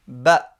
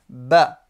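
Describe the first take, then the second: The two takes are said the same way.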